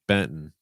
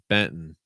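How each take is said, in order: The two takes are said the same way.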